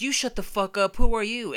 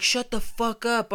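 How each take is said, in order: First: High retort, louder at the end; mock yell, indignant comeback; retold yelling back. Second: High-pitched mock yell; imitating an irritated holler; retold heckling yell. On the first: Man snapping back at a hidden heckler, yelling. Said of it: "we're yelling back at him". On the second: Guy in a slide silencing the arguers, yelling. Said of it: "is yelling from inside of a slide".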